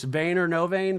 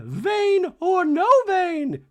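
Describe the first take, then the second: First: Said in the usual way. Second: Very high, loud, drawn-out mock declaration; Dorit declaring. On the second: Dorit refusing in a talking head, slow shrieked defiance. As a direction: stretch it into a hammed-up shriek. Dorit acted, host repeats it plainly.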